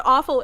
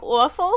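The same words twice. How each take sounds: First: Said in the usual way. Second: Put-on Brooklyn accent. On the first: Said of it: "I was trying to say the word awful". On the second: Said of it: "a Brooklyn accent".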